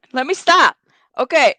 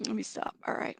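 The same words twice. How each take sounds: First: Louder, decisive, a touch higher; firm reset. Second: Much softer, almost to herself; quiet. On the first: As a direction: snap yourself back on track. Pulls herself together firmly. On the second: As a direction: murmur it under your breath to regain composure. Composing herself after laughing. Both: Real, not acted.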